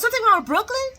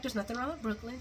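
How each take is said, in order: First: High, loud put-on questioning voice; hammed-up worry, pitched way up; mock concerned woman. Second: Softer, understated denial; mock dismissive reply. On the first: Woman asking Chase about Brooklyn, high mock alarm. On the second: Chase brushing off the question, quiet mock denial. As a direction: play it down quietly.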